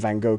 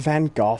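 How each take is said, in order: First: It copies the other speaker's pronunciation of the name. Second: It uses the standard British pronunciation of the name. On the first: "I'm saying Van Gogh because you said it" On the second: "In Britain, the standard pronunciation is Van Gogh"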